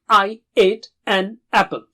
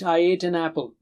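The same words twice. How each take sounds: First: Each vowel begins with a sharp throat catch. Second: The vowels flow smoothly without a throat catch. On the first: The speaker calls it right. "it will be something like" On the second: The speaker calls it wrong. "Don't say without a jerk. Don't say like in English"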